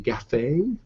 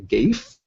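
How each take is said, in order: First: It is two syllables rhyming with cafe. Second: It is one syllable rhyming with safe. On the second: "as it rhymes with safe"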